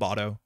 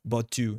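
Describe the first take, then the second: First: The final vowel sounds like 'oh'. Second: The final vowel sounds like 'oo'. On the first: The speaker calls it wrong. "not Boto" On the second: The speaker calls it right. "Boto uses an oo sound"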